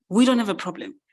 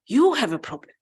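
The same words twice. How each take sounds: First: "We" leaned on, rest falling; stress on WE. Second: "You" swooping high, then falling away; stress on YOU. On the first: Cow brushing off the dramatic mouse, stress on "We". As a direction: hit "We" to step out of it. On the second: Cow handing the problem back to the mouse, stress on "You". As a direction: swing up hard on "You". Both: Acted.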